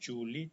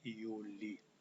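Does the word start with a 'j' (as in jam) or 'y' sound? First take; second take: j sound; y sound. First: It begins with a j sound as in jam. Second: It begins with a y sound as in yes. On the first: The speaker calls it wrong. "bukan Juli" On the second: The speaker calls it right. "dibaca seperti huruf Y"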